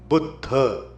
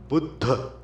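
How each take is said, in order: Both takes have the same delivery.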